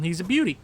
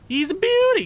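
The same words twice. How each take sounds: First: Said in the usual way. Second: "beauty" squealed much higher and louder; over-the-top delighted squeal; squealed praise. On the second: Acted. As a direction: gush it out in a big high squeal. Repeats praise, second time exaggerated.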